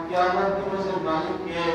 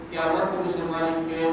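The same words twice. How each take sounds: The two takes are said the same way.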